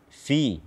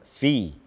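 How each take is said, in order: No difference in how they are said.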